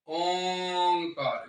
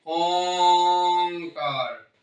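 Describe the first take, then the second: First: ओंकार drawn out slowly, held on the nasal ओं; slow sacred syllable; resonant intoning. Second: ओंकार stretched very long and louder, ringing on the नासिक ओं; the word made to ring through the body; louder resonant intoning. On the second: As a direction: sound ओंकार fully and louder from within. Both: Shown as a demonstration. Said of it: "ग में नहीं है".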